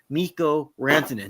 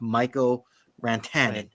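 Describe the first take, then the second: First: The first vowel of the name sounds like 'ee'. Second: The first vowel of the name sounds like 'eye'. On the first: The speaker calls it right. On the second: The speaker calls it wrong.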